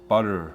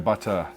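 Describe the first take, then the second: First: It is said in an American accent. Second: It is said in a non-American accent. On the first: "I have to pronounce it like an American" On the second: "I say butter"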